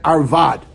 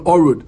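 First: It is pronounced arvad, with an a vowel and v. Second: It is pronounced orud, with an o vowel, no v.

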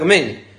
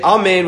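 First: The first vowel is a short clipped schwa. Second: The first vowel is a full open a. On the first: The speaker calls it wrong. "if you say it with only a shva" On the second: The speaker calls it right. "you're supposed to say Amen with a kamatz"

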